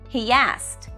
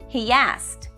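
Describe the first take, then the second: Both takes have the same delivery.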